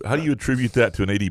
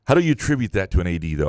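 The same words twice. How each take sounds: First: Said in the usual way. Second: "how do you attribute that to an A D though" said through a real laugh. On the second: Real, not acted. Host still laughing at the cohost's bit, repeating the question through laughter.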